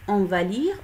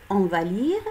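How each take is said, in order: The two takes are said the same way.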